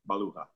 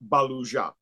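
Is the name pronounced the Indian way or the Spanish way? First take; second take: Spanish; Indian. First: The name is given a Spanish pronunciation. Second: The name is given an Indian pronunciation. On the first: This is how the speaker's own family name is said. "but mine is Spanish" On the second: This is how the name is said in India. "the Indian version of that"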